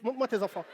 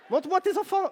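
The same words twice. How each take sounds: First: Said in the usual way. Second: Plus haut et plus fort, en insistant sur tes; exige-le en haussant la voix. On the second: Acted. Interpelle une spectatrice. (il réclame les enfants à la maman, plus fort et plus haut)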